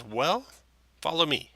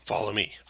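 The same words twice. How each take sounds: First: Put-on high-pitched older halfling; lilting, higher halfling voice; halfling woman. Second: Lightly voiced growly orc; a hint of growl in an orc's order. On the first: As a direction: beckon them along in a raised voice. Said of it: "And she says". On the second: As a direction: lead them on as a mildly growly orc. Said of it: "it has a deep growly voice".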